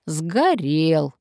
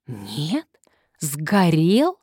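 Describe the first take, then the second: First: Drawn-out, falling, contented statement; satisfied confirmation. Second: Drawn-out, rising disbelieving question; disappointed drawl. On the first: Old man confirming the house fire, satisfied. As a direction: confirm it with relish, falling at the end. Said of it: "довольно подтвердил старик". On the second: Visitor learning the old house is gone, disappointed drawl. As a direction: stretch it out, let down and questioning. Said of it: "разочарованно протянул Константин". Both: A narrator's reading.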